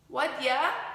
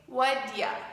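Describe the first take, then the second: First: The words blend into one reduced form. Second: The same.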